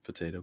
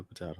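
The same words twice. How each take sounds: First: "Potato" with an AY middle, po-TAY-to; common pronunciation. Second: "potato" with an AH middle, po-TAH-to; alternate pronunciation. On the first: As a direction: say "Potato" the usual American way, as po-TAY-to. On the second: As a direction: say "potato" to rhyme with British tomato, as po-TAH-to. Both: Shown as a demonstration.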